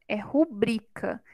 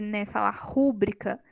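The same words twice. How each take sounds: First: "rubrica" stressed on the second-to-last syllable, ru-BRI-ca; correct stress rubrica. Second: "rúbrica" stressed on the first syllable, RU-bri-ca; wrong stress rúbrica. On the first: Teacher giving the correct form, stress on BRI. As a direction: put the weight on BRI in "rubrica". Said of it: "a sílaba tônica é a penúltima". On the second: Teacher showing the common mistake, stress on RU. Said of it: "mas não é rúbrica, é rubrica". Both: Shown as a demonstration.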